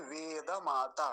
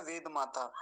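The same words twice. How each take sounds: First: वेद माता slow, with a full द, veda mata; careful वेद माता, the द kept whole; correct pronunciation. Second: वेद माता with the द made silent, ved mata; demonstrating the mistake: वेद माता as ved mata; वेद माता clipped to ved mata; wrong pronunciation. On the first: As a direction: slowly sound वेद माता as ve-da-ma-ta. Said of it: "वेद माता नहीं है". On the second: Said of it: "और गलत उच्चारण क्या होता है?". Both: Shown as a demonstration.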